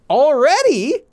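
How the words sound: It is said with surprised emotion. It happened sooner than expected. "벌써 has a feeling of emotion"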